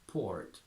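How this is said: Said in an American accent, R pronounced. "From American to British"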